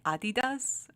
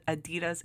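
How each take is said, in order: First: Adidas with the first syllable stressed, an open "ah"; non-English pronunciation. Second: Said in the usual way. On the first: Shown as a demonstration. Checking how the brand is really pronounced, Adidas opening on a stressed "ah". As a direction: say Adidas as AH-dee-das. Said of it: "Isn't it Adidas?". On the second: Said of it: "like, the English way".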